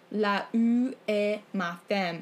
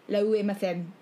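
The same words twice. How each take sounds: First: The two opening vowels are said separately. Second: The two opening vowels merge into one sound. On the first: The speaker calls it wrong. "you're not supposed to say la ou et ma femme" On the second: The speaker calls it right. "It's la ou et ma femme"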